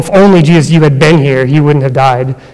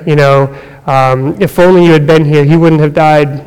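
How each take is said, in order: First: The voice sounds accusing and reproachful. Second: The voice sounds hopeless and despairing. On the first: The listener is blamed for the death. "It could have even been accusatory" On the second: Nothing else can be done now. "It could have been in despair"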